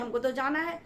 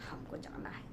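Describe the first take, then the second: First: It is said angrily and forcefully. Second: It is said softly and sweetly.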